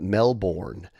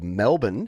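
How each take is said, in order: First: It is said the way tourists usually say it. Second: It is said the way local Australians say it. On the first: The speaker sounds like a visitor from elsewhere. The speaker calls it wrong. "You can't pronounce it Melbourne because you'll instantly, people will instantly know that you're a tourist" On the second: The speaker sounds like someone who lives there. The speaker calls it right. "you have to pronounce it that way"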